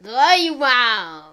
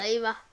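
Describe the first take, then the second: First: It is said with lively, upbeat energy. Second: It is said flatly, with little energy.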